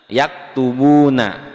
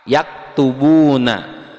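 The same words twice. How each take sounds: Both takes have the same delivery.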